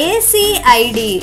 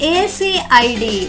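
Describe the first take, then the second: Both takes have the same delivery.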